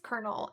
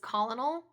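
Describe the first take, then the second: First: The word is said without an L sound. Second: The word is said with an L sound. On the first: The speaker calls it right. "they were like, it's colonel" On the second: The speaker calls it wrong. "it's got an L in it, like an L in the middle of it. And I kept reading it as colonel"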